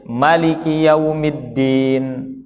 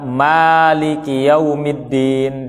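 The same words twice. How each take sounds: First: The first vowel of Maliki is short. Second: The first vowel of Maliki is long.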